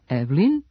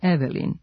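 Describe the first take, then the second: First: The middle e vowel is dropped. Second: The middle e vowel is pronounced. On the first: The speaker calls it right. "pravilno Evelin" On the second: The speaker calls it wrong. "umesto Evelin"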